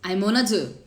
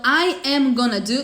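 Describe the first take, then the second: First: The words run together in one linked chunk. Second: The words are said separately, one by one.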